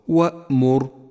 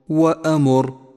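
First: The glottal stop is closed cleanly without echo. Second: The glottal stop is released with a bouncing echo. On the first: The speaker calls it right. "صوابه" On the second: The speaker calls it wrong. "احذر من قلقلة حرف الهمزة إذا جاء ساكنا ... فهذا خطأ شائع"

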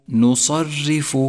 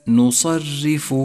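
The two takes are said the same way.

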